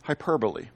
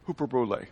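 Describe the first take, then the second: First: "hyperbole" said the English way, softer and lower, hy-PER-bo-lee; English pronunciation. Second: "Hyperbole" said as Greek, hoo-per-bo-LAY, softer; Greek pronunciation. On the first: Pastor naming the English word to his congregation, plain English sounds. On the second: Pastor giving the Greek original to his congregation, hoo-per-bo-lay. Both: Shown as a demonstration. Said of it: "The word is".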